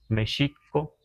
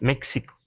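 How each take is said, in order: First: The middle consonant is a sh sound. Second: The middle consonant is a ks sound. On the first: This is how Nahuatl speakers say it. "lo que los nahuas decimos México" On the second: This is how English speakers say it. "Es que porque pronuncian la X"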